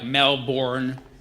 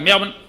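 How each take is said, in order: First: The name is fully enunciated, American style. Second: The name is clipped, Australian style.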